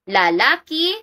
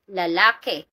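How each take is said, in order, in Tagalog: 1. Ang huling pantig ay nagtatapos sa patinig na 'i'. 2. Ang huling pantig ay nagtatapos sa patinig na 'e'. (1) "Ki napalitan" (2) "dun sa ke"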